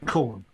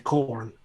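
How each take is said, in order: First: It is said in a London accent without R. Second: It is said in an American accent with R.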